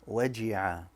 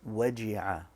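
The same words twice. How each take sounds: No difference in how they are said.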